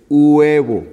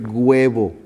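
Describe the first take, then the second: First: Huevo with silent h, opening on a long oo, "uu-ebo"; slow, louder huevo starting on a pure u vowel; correct pronunciation demo. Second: Huevo said with a hard g, "gwebo"; wrong pronunciation demo. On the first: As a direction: draw out the u of huevo, no g. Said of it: "Se escribe con H". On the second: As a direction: put a g sound in front of huevo. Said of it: "No es huevo". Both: Shown as a demonstration.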